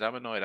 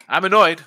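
First: Said in the usual way. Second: Loud, higher burst of annoyance; annoyed. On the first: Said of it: "Like I said". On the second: Real, not acted. Host venting about a bet that failed to cover, loud and annoyed. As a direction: snap it out, truly irked.

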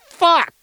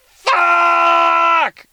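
First: Short, high exasperated yell; acted burst of frustration, loud and abrupt; mad parent. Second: Long, drawn-out high scream; acted scream of frustration, held at full volume; mad parent. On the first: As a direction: yell it once, high and sharp. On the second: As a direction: stretch it into one loud, high howl. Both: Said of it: "You're so mad at your kid".

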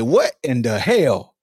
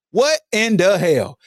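First: What in the hell dragged down low, falling; stunned mutter to yourself; low, slow, stunned disbelief. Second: What in the hell back at normal pitch, slow and falling; slow incredulous repeat. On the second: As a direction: ask it again, still stunned. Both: Shown as a demonstration.

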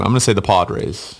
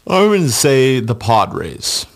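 First: Said in the usual way. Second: Said through a slow yawn; stretched out mid-yawn, high and slow. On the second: Real, not acted. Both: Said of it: "Sorry, I was yawning for a second".

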